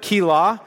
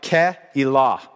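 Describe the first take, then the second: First: It uses a simplified, anglicized pronunciation. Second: It uses a pronunciation closer to the original. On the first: The speaker calls it wrong. "pronounce it the easy way instead of the correct way" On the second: The speaker calls it right. "it's actually pronounced something like Keilah"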